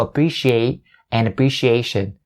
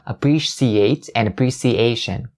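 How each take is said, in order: First: Both words have a sharp sh sound. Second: Both words have a soft s sound. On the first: The speaker calls it right. "So appreciate and appreciation" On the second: The speaker calls it wrong. "not appreciate and appreciation"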